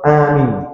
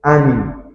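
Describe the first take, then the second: First: The first vowel is kept short. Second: The first vowel is kept short.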